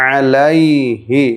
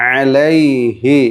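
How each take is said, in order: Both takes have the same delivery.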